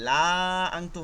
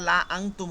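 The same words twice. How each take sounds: First: The vowel in 'la' is drawn out long. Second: The vowel in 'la' is kept short. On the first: The speaker calls it wrong. "লা আংতুম হবে না" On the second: The speaker calls it right. "এটা লা আংতুম হবে"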